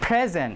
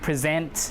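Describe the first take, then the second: First: The stress is on the first syllable. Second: The stress is on the second syllable. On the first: It is a noun meaning a gift. "So the stress is on the first syllable" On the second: It is a verb meaning to show. "So the stress falls on the second one"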